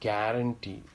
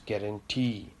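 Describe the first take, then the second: First: The last syllable is not stressed. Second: The last syllable is stressed. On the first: The speaker calls it wrong. "It's not guarantee" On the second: The speaker calls it right. "these E E and O O are pronounced more"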